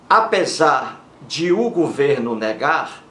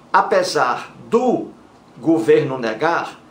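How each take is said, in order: First: De and o are said as separate words. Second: De and o merge into one syllable, do. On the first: The speaker calls it right. "o certo é assim" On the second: The speaker calls it wrong. "Aí está o erro"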